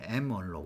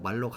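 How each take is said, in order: First: The first part is said as letter M. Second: The first part is said as 'mal'. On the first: This is how the speaker's generation says it. "M언록이라 보통 우리 발음했는데" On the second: This is how the students say it. "여러분들은 말록이라고 하더라고요"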